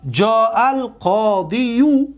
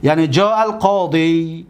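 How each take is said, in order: First: جاء القاضیو said slowly, with an added -u sound after القاضی; heavy wrong form. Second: جاء القاضی ending in a plain long ی with no vowel after it; correct form. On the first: Teacher voicing a student's clumsy ending, slow demo. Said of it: "اگر یک کس بیا بگه که من میگویم که جاء". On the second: Teacher giving the correct Arabic form to the class. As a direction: finish القاضی cleanly on its long ی, slightly slow. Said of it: "این را میگیم القاضی". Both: Shown as a demonstration.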